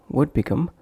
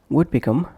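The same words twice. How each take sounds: Both takes have the same delivery.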